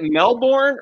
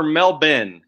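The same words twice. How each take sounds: First: Melbourne said MEL-BORN, with a full "born"; full spelled-out pronunciation. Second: Melbourne said MEL-bin, with no r; local Aussie pronunciation. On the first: Host asking about local usage, Melbourne said as MEL-born. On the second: Host asking about local usage, Melbourne said as MEL-bin. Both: Shown as a demonstration. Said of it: "did you pronounce it".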